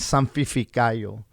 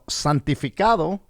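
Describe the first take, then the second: First: The word ends with a 'yo' sound instead. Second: The word ends with a clear 'do' sound. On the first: The speaker calls it wrong. "As a child, I'm saying santificayo" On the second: The speaker calls it right. "I couldn't even pronounce the fucking word"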